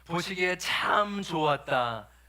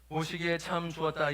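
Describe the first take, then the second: First: It is said with strong, warm feeling. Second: It is said flatly, without feeling. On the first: The speaker calls it right. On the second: The speaker calls it wrong.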